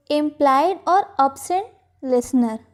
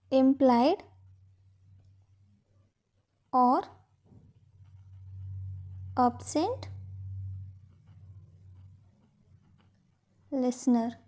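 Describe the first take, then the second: First: Said in the usual way. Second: Each word alone, long gaps between; measured dictation for note-takers. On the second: Shown as a demonstration. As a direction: dictate word by word, getting softer. Dictates the same phrase in pieces.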